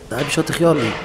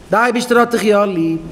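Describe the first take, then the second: First: Said in the usual way. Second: High, impassioned preacher's cry; fervent assurance. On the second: Acted. Preacher assures the sinner he is loved, crying it high. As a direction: cry out the reassurance with full conviction.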